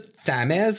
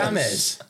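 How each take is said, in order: First: It is said in a foreign-sounding way. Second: It is said in the usual English way. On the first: The speaker calls it wrong. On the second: The speaker calls it right.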